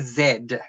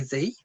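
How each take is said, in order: First: The letter name is said the Australian way. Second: The letter name is said the American way. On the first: "in Australia we say Z" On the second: "I'm assuming you two say Z"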